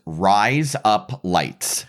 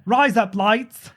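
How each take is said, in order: First: Slow drawn-out Australian "rise up lights"; Australian accent. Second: "Rise up lights" slowed right down in a put-on Australian voice; Australian accent. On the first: Teaching a friend the Australian joke, slow Australian accent. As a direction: say "rise up lights" slowly like an Aussie saying razor blades. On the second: Repeating the teacher's joke line in an Australian accent. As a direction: drawl it like an Aussie. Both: Shown as a demonstration. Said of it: "That's razor blades in Australian accent".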